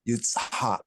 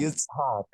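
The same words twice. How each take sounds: First: The consonants are said with extra emphatic force. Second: The consonants are said plainly, without extra force. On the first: This is the older way of saying it. "in the older pronunciation, it'd probably be a little more emphatic" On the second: This is how it is said today. "They'll say"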